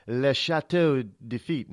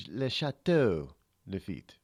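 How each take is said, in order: First: "Le Chateau de Lafitte" in a put-on French accent, nasal vowels; mock French. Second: "Le Chateau Lafitte" again with a light put-on French accent; mock French. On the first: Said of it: "we say it in French". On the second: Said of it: "just say it in French". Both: Shown as a demonstration.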